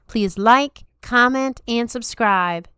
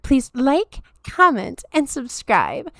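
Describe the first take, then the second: First: It is spoken in a Southern US accent. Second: It is spoken in a Valley Girl accent. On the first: "I try to do a southern accent" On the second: "Now you get to get the Valley Girl"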